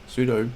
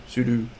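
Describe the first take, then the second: The two takes are said the same way.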